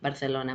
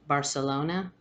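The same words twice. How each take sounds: First: It is said the Madrid Spanish way. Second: It is said the American way.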